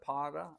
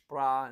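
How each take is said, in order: First: The word is said as two syllables. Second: The word is said as one syllable. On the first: "instead of para" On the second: "pra instead of para"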